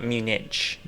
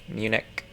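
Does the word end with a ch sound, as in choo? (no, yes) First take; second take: yes; no. First: The word ends with a ch sound. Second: The word does not end with a ch sound. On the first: The speaker calls it wrong. "anything that ever ends with ch isn't pronounced ch" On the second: The speaker calls it right. "that's how it's pronounced"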